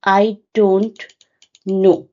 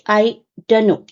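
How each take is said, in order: First: Every sound of the phrase is said fully. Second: Some sounds of the phrase are dropped. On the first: "This is the full phrase" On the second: "you will just say I don't know. That will be called elision"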